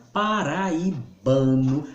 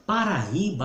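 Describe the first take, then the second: First: "paraibano" slowly, with BA as the strong syllable; stress on BA. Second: "Paraíba" with the I as the strong syllable; stress on I. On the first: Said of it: "a sílaba tônica é ba". ("paraibano" devagar, com o ba tônico) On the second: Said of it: "a sílaba tônica é o I". ("Paraíba" com o I tônico) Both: Shown as a demonstration.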